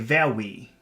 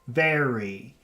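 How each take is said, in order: First: The R is made with rounded, kissing lips. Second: The R is made with a cupped tongue. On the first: The speaker calls it wrong. "a little child would say very" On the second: The speaker calls it right. "we make a cup with the tongue"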